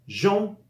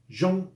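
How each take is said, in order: Both takes have the same delivery.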